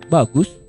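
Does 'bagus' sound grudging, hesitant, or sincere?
sincere. It is said as sincere, wholehearted praise. The praise is genuinely meant. "benar-benar kita bilang ini ngomong bagusnya itu ikhlas"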